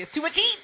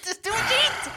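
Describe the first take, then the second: First: Anxious, a bit higher; nervous mock worry. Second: Squeaky anxious repeat, much higher; much higher nervous whine; higher whiny repeat. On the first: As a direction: fret nervously to yourself. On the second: Retold or imitated. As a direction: whine it up high. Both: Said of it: "I was just like".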